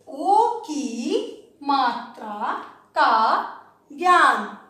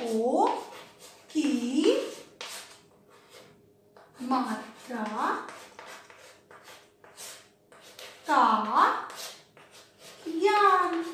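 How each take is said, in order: First: ओ की मात्रा का ज्ञान stretched slowly as one phrase; drawn-out phrase. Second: ओ की मात्रा का ज्ञान, each word set apart by long pauses. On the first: Teacher to class, repeating the title as one slow phrase. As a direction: let ओ की मात्रा का ज्ञान flow together, very slowly. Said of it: "repeats title as one phrase". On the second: Teacher to class, dictating the lesson title word by word. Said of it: "dictating the lesson title". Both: Shown as a demonstration.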